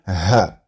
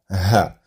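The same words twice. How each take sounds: No difference in how they are said.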